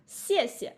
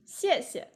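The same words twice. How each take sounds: First: 谢 谢 said as two separate full syllables. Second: 谢谢 joined, second 谢 light and unstressed; light second syllable. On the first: Teacher to online class, splitting 谢谢 into two slow syllables. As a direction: break 谢谢 apart, one 谢 at a time. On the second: Teacher to online class, joining 谢谢 with a light ending. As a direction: say 谢谢 whole, letting the second 谢 fall away. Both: Shown as a demonstration. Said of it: "the second character is pronounced really light".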